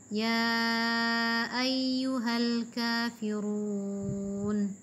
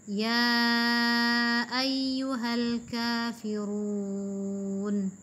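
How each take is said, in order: No difference in how they are said.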